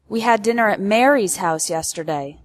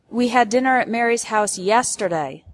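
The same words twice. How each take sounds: First: The word Mary's carries the main stress. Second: The word yesterday carries the main stress. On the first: It corrects the host, not Martha. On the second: It corrects the time, not last week.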